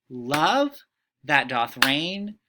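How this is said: The stress falls on the word love. The speaker calls it right. "It makes more sense to emphasize love"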